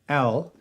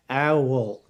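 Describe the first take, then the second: First: The word is said as one syllable. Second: The word is stretched into two syllables. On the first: "that's three letters, O W L" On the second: "a lot of people pronounce that with two syllables"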